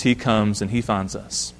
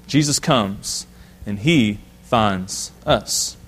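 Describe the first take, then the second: First: Said in the usual way. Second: Drawn out slowly, low and soft, rising at the end; slow, emphatic repeat. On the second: Shown as a demonstration. Preacher to church, slow emphatic repeat. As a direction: let each word land slowly. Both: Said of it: "repeats the line for emphasis".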